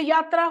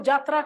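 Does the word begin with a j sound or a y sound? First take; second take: y sound; j sound. First: The word begins with a y sound. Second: The word begins with a j sound. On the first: The speaker calls it right. "य है उसका ज में प्रयोग करते हैं" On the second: The speaker calls it wrong. "वो जात्रा कहेंगे"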